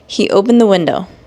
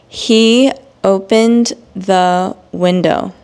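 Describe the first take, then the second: First: It is spoken at a normal pace. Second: It is spoken slowly and carefully. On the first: "then I will read it in normal speed" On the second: "read these examples in slow English"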